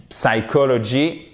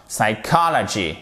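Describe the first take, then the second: First: "psychology" French-style, with no stressed COL; faulty "psychology", syllables all alike; wrong stress. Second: "Psychology" as "sai-KAH-la-gee"; stress on COL. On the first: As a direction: say "psychology" evenly, as "sai-ko-lo-gi". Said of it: "ça ne fonctionne pas". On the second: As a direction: punch the second syllable of "Psychology". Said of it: "partir de l'accent tonique". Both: Shown as a demonstration.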